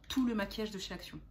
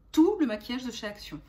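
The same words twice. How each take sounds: First: Said in the usual way. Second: "Tout" stressed strongly, louder than the rest; emphatic repeat. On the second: Real, not acted. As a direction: lean hard on "Tout" at the start. Repeats it for emphasis after aside.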